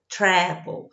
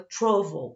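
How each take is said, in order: First: American accent, stress on the first syllable. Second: British accent, stress on the last syllable.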